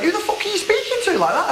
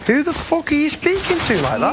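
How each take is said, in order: First: Mock indignant yell, pitched up high; retold outburst. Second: Indignant challenge, pitched up high; angry retort. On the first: [name] retelling his comeback to Dina, hammed-up outrage. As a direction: replay the outrage for the camera. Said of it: "I, I just went". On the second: Real, not acted. [name] firing back at Dina's warning, real indignant anger. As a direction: hit back hard at her threat. [name] confronts Dina in argument.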